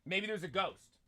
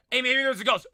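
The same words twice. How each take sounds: First: Said in the usual way. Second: Louder and higher, playful; mock spooky tease. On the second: Streamer teasing chat about the noise, louder playful. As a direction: call it out teasingly. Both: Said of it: "repeated louder".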